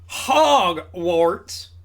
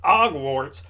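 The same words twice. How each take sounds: First: The word starts with a clear H sound. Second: The word starts without an H sound. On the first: The speaker calls it right. "Because we pronounce the H here in America" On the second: The speaker calls it wrong. "Not Hogwarts"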